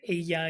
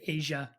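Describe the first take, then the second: First: The middle consonant is a 'y' sound. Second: The middle consonant is a 'sh' sound. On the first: "you wouldn't say ella" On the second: "in Argentina, it sounds a bit like sh or j"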